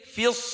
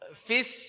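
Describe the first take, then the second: First: The syllable is pronounced thick and heavy. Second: The syllable is pronounced thin and light. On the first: The speaker calls it right. "tebal langsung" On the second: The speaker calls it wrong. "bukan fis"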